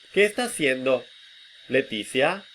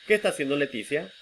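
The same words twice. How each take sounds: First: It is split into two groups by a pause. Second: It is said as one unbroken group. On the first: "Notice how I separate them" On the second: "String of sounds"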